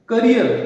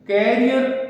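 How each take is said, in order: First: The first vowel is short, like 'kuh'. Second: The first vowel is open, like 'keh'. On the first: The speaker calls it right. "इसका जो उच्चारण है वो करियर होता है" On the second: The speaker calls it wrong. "न कि कैरियर"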